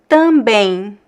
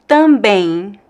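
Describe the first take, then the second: The two takes are said the same way.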